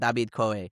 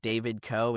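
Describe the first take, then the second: First: The name is said with a Spanish accent. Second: The name is said with an English accent. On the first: The name sounds cooler. The speaker calls it right. "in Spanish" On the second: The name sounds dull. The speaker calls it wrong. "is lame in English"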